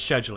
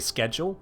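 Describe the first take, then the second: First: It is said with a British pronunciation. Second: It is said with an American pronunciation.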